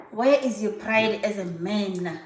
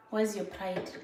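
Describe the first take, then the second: First: "Where is your pride" drawn out slowly and firmly; slow, pointed challenge on "pride as a man"; emphatic repeat. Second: Said in the usual way. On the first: Real, not acted.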